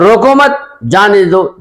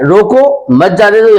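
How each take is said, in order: First: रोको मत in one go, break, slower जाने दो; pause after मत. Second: Raised रोको, break, then मत जाने दो together; pause after रोको. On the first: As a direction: run रोको into मत, then release जाने दो. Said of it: "जान छुड़ाओ". (रोको मत एक साथ, फिर ठहर कर जाने दो) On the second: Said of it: "यानी बिठाओ". (ऊँचे सुर में रोको, ठहराव, फिर मत जाने दो) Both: Shown as a demonstration.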